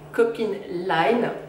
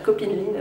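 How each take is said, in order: First: The name is pronounced with English-style sounds. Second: The name is pronounced with French-style sounds. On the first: "j'ai tendance à le prononcer à l'anglaise" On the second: "c'est mignon aussi"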